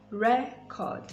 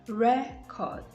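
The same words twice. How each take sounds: The two takes are said the same way.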